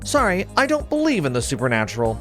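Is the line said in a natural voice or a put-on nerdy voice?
natural. It is said in his ordinary natural voice.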